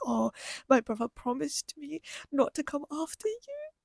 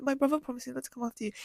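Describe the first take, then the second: First: Tearful retelling. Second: Said in the usual way. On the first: Retold or imitated. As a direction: let it stretch and lift, choking up. I'm gonna start crying again.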